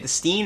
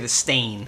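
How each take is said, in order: First: The ending is said with an 'ee' vowel. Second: The ending is said with an 'ay' vowel. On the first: "Do you say the Steen" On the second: "or do you say the Stain?"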